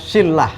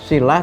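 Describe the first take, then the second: First: The l sound is doubled and held. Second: The l sound is short and single. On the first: The speaker calls it wrong. "seringkali sebagian kita ini menyebutnya silah" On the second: The speaker calls it right. "yang betul adalah silah tanpa tasdid"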